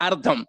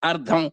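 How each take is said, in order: Both takes have the same delivery.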